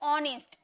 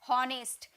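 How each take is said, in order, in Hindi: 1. शब्द सीधे स्वर की आवाज़ से शुरू होता है। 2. शब्द की शुरुआत में साफ़ H की आवाज़ है। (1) "एच साइलेंट रहता है" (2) "एच है ना इसलिए हॉनेस्ट नहीं"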